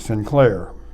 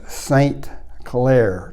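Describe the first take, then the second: First: The name begins with the sound "sin". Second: The name begins with the sound "saint". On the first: "They pronounced Saint as sin" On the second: "to say it in clear English"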